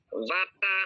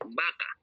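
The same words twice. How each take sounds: First: "Vaca" begun with an English V. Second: "baka" begun with a B sound. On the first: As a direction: say "Vaca" as spelt, teeth on lip for the V. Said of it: "not with the V". ("Vaca", binibigkas na may tunog na V) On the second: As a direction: say "baka" with a B where V is written. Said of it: "we pronounce this as". ("baka", binibigkas ang V na parang B) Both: Shown as a demonstration.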